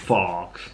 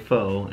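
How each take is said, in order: First: The word ends with a ks sound. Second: The word ends on an open vowel sound. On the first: "and I say" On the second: "I often don't say faux"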